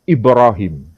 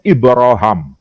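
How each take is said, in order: First: The last syllable has an 'ee' vowel. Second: The last syllable has an 'ah' vowel. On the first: This is the reading most people in Indonesia use. "Kalau dengan versi kiraah hafs itu membacanya dengan istilah Ibrahim" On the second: This is the reading of a different tradition. "kalau dibaca dari versi riwayah Hisham, bacaannya bukan Ibrahim tapi Ibrahim"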